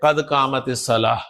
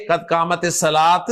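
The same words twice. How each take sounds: First: Low, slow قد قامت الصلاح ending in H; pronounced with H. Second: Slow قد قامت الصلاۃ ending in a hard T; wrong final T. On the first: Teacher modelling proper takbeer ending, الصلاح with final H. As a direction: close الصلاح on H instead of T. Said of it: "ہا کے ساتھ پروناؤنس کریں". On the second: Teacher showing the mistake to avoid, الصلاۃ with final T. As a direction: end الصلاۃ on a released T instead of H. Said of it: "نہ کہ قد قامت الصلاۃ". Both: Shown as a demonstration.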